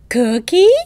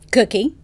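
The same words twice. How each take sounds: First: The word is said with a melodic, lilting tune. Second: The word is said flatly, in an ordinary tone. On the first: The speaker calls it right. "as melodic and prosodic as you, as rhythmic as you can" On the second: The speaker calls it wrong. "You're not going to say that"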